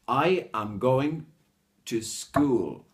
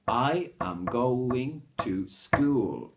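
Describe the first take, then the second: The two takes are said the same way.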